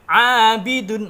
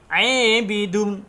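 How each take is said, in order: First: The long vowel is a pure open a. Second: The long vowel is tilted toward e.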